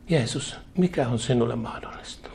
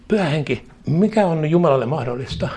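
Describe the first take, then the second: First: Quieter voice. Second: A mild sullen, know-it-all challenge. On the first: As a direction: ask Jesus gently, with a humbled heart. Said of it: "kysyt hiljaisemmalla äänellä". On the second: Believer challenging the Holy Spirit, mildly sullen and know-it-all. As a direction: demand it of the Spirit as if you already know best. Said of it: "Nyrpeällä, itsetietävällä, kato, mielellä". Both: Retold or imitated.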